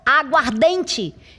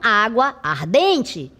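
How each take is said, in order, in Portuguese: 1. As duas vogais se fundem em uma só palavra. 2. As duas vogais ficam separadas, como duas palavras. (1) "Ficou aguardente" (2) "e não água ardente"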